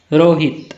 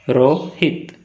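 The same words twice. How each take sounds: First: Said in the usual way. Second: रोहित broken in two, रो, then हित; split into syllables. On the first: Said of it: "म्हणजेच syllable पाडा". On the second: Shown as a demonstration. Teacher showing two syllables, रोहित split as रो-हित. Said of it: "two syllables".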